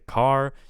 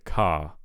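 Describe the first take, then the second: First: The r is pronounced at the end. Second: The r at the end is dropped. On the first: "pronounced uh, overtly like a consonant like it would be in American English" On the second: "if you want to drop the r"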